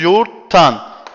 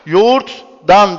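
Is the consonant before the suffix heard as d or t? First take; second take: t; d. First: The suffix begins with a t sound. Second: The suffix begins with a d sound. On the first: The speaker calls it right. "D ne yaptı? T'ye dönüştü" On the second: The speaker calls it wrong. "Yoğurttan demiyoruz"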